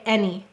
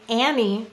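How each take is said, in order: First: The first vowel sounds like the vowel in bed. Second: The first vowel sounds like the vowel in cat. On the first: The speaker calls it right. "we say any" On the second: The speaker calls it wrong. "instead of saying Annie"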